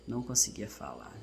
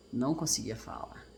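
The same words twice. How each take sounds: The two takes are said the same way.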